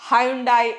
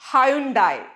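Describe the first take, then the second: The two takes are said the same way.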